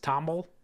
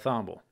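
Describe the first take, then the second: First: The name begins with a plain T sound. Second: The name begins with a TH sound. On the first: "like a Thomas Tomble kind of sound" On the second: "kind of like thimble, but a Thomble"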